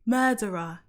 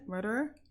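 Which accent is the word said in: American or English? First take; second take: English; American. First: It is said in an English accent. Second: It is said in an American accent. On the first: "That's how I say it in English" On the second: "Say murderer in an American accent"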